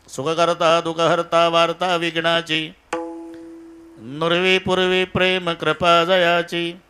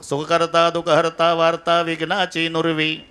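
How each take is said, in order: First: The pause falls before नुरवी. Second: The pause falls after नुरवी.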